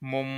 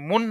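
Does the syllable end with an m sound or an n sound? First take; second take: m sound; n sound. First: The syllable ends with an m sound. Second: The syllable ends with an n sound. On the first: The speaker calls it right. "আমরা বলবো মিম দুই পেশ মুম" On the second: The speaker calls it wrong. "মুন না বলে"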